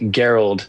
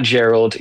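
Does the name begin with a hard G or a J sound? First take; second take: hard G; J sound. First: The name begins with a hard G, like gear. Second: The name begins with a soft J sound. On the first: The speaker calls it right. "it's spelled like gear with an LD on the end" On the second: The speaker calls it wrong. "not Gerald"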